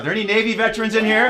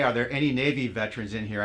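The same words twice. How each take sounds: First: Loud, fast, high rallying call; hype shout. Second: Said in the usual way. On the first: Pretend. Host cues the audience to cheer for Navy veterans, hyped-up shout. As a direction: call it out big to whip up a cheer, rising at the end.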